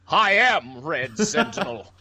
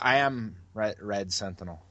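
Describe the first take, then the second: First: It is said in a superhero voice. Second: It is said in his normal voice.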